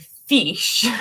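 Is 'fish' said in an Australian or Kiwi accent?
Australian. It is said in an Australian accent.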